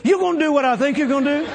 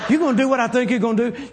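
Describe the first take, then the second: First: Higher excited repeat. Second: Eager, laughing disbelief; half-laughing, wide-eyed ask; excited laughing question. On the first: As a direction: pitch jumps up, laughing. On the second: Excited friend asks, laughing. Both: Retold or imitated.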